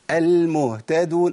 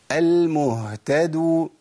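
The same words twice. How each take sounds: First: Slow "المهتدون" with the h cut short; ha not sounded. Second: Very slow "المهتدو" with a full breathed h; ha sounded. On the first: Teacher contrasts wrong with right, ha missing. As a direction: go from "mu" to "ta" in "المهتدون" without breathing h. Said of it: "ما طلعتش الهاء". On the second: Teacher contrasts right with wrong, ha sounded. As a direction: linger on the h in "المهتدو". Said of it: "آه، طلعت الهاء". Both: Shown as a demonstration.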